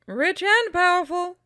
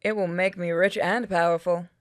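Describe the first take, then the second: First: High-pitched exclamation, rising at the end; incredulous echo. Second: Said in the usual way. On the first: Acted. Companion echoing the scheme, high incredulous voice. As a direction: throw the words back way up high. Other character echoes the scheme.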